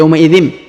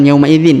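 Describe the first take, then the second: First: The phrase ends with an m sound. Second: The phrase ends with an n sound. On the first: The speaker calls it right. "tapi yauma idzim" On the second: The speaker calls it wrong. "bukan yauma idzin ya"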